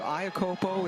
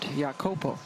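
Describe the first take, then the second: First: The name begins without a Y sound. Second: The name begins with a Y sound. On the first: This is the older form of the name. "Iacopo is how we knew her in college" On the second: This is the traditional form of the name. "the more traditional way of pronouncing her last name, which is with like a Y sound"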